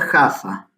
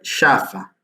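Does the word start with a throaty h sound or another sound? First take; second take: throaty h; another sound. First: The word starts with a throaty h sound. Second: The word starts without a throaty h sound. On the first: It can be misheard as a different city. The speaker calls it wrong. "no se pronuncia Jaffa" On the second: It names the intended city. The speaker calls it right. "se pronuncia Jaffa"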